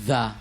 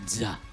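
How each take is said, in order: First: The word begins with a soft 'th' sound. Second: The word begins with a buzzing 'z' sound. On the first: The speaker calls it right. "you have to pronounce yung yung word na the" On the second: The speaker calls it wrong. "hindi za"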